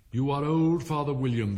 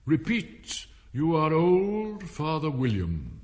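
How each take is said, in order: First: Raised, metrical opening line; poem recitation. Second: Loud, slow, higher command; commanding caterpillar. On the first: Alice beginning her recitation, raised and rhythmic. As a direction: launch the verse in rhythm, without drawling. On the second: Caterpillar ordering Alice to recite, slow and commanding. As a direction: draw out OLD imperiously. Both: A narrator's reading.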